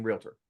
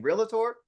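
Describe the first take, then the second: First: "realtor" said as REEL-tor, no middle vowel; correct two-syllable pronunciation. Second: "realtor" said as REE-luh-tor, with an extra syllable; wrong three-syllable pronunciation. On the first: Trainer contrasting with the wrong version, two-syllable "realtor". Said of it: "or are they saying realtor". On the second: Trainer showing how people misspeak, three-syllable "realtor". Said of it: "are they saying realtor". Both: Shown as a demonstration.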